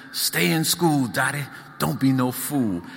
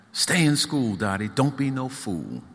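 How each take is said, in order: First: Southern accent, higher hollered imitation of [name]; girl imitating the star for her siblings, Southern holler. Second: [name] voice. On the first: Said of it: "holler in a southern accent". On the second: Acted. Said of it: "[name] advises Dottie".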